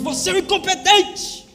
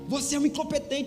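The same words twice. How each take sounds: First: It is said in a loud, angry voice. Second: It is said in a calm, quiet voice. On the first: This is how the words were really said. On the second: This is not how the words were really said.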